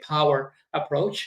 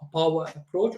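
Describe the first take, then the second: First: It is said in an American accent. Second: It is said in a non-American accent.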